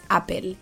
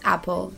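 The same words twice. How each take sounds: First: Apple is said with a Spanish accent. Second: Apple is said with an English accent.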